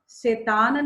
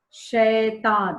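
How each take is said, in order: First: "शैतान" with a closed e, like "शेतान"; "शैतान" mispronounced with a pure e vowel; wrong pronunciation. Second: "शैतान" slowly, with an open ai; "शैतान" drawn out, ai not e; correct pronunciation. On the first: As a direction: show the mistake, narrowing the ai of "शैतान" to e. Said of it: "नहीं". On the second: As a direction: model "शैतान" syllable by syllable, wide ai first. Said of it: "शैतान नहीं". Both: Shown as a demonstration.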